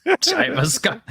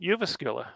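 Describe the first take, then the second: First: Jyväskylä with an English J, like "tie-vuh-skah"; American mispronunciation. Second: Jyväskylä with a Y sound for the J and "oo" vowels; Finnish pronunciation. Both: Shown as a demonstration. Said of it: "How do you actually say it?".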